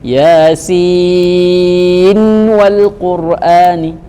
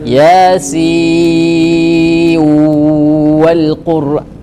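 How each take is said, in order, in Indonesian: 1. Nun akhir dibaca jelas sebelum 'wal'. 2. Nun akhir melebur ke huruf w yang mengikutinya. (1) "membaca dengan izhar ... nunnya diperjelas" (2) "bagaimana kalau bahasa idgham?"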